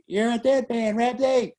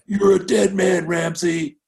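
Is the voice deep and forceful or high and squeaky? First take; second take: high squeaky; deep forceful. First: It is said in a high, squeaky voice. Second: It is said in a forceful, deep voice.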